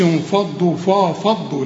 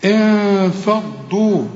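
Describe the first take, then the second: First: انفضوا with ف thickened to "faw"; wrong heavy faa. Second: Slow انفضوا with a thin nasal hum and light ف; light ghunna. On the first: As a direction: back the ف and its nasal in انفضوا. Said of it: "ما تقولش". (انفضوا بفاء مفخمة غلط) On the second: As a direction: hold a fronted "n" before ف in انفضوا. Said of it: "مرققة علشان الفاء مرققة". (انفضوا بغنة وفاء مرققتين) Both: Shown as a demonstration.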